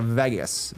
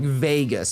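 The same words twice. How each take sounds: First: The first vowel sounds like 'eh'. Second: The first vowel sounds like 'ay'. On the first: This is how one particular person says it. "you are more of like a Vegas, V E H Gus" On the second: This is how most people say it. "most people would say like Vegas, V A Y Gus"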